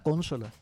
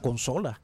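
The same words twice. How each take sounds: First: The stress is on the first syllable. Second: The stress is on the second syllable. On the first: This is the common Venezuelan way of saying it. The speaker calls it wrong. "nosotros acostumbramos a decir en Venezuela consola" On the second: This is the standard way of saying it. The speaker calls it right. "en realidad la palabra es no es esdrújula"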